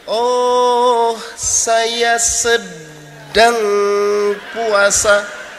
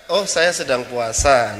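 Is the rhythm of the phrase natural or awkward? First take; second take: awkward; natural. First: The beat and timing sound off. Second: The beat and timing sound natural.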